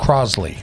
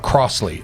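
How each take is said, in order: First: The middle consonant is a buzzing Z sound. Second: The middle consonant is a hissing S sound. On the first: The speaker calls it right. "Like it's a Z sound" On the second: The speaker calls it wrong. "It's not Crossley"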